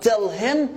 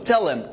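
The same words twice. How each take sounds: First: The h sound of him is clearly pronounced. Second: The h is dropped, linking into tellim. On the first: The speaker calls it wrong. "Not tell him, which is a little difficult" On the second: The speaker calls it right. "the reduction for him is M. We actually gonna remove the H"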